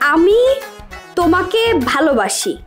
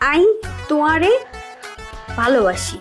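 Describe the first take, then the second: First: It is said in standard Bengali. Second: It is said in Noakhali dialect.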